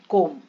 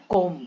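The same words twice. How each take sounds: First: The word ends on an m sound. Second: The same.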